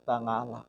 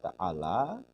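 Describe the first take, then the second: First: The middle consonant is a nasal ngain sound. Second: The middle consonant is a throaty ain sound.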